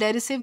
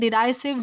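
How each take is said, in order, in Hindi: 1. दूसरे अक्षर में छोटा 'ih' स्वर है। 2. दूसरे अक्षर में 'eye' स्वर है। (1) "किसी भी तरह प्रोनाउंस किया जा सकता है" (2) "किसी भी तरह प्रोनाउंस किया जा सकता है"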